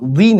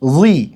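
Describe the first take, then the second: First: The syllable is pronounced light and thin. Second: The syllable is pronounced heavy and thick. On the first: The speaker calls it wrong. "ঠিক তেমনি এটা রুই না" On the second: The speaker calls it right. "এটা হচ্ছে রুই, রুই, কিছুটা মোটা করে"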